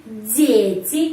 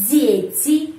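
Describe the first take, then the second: No difference in how they are said.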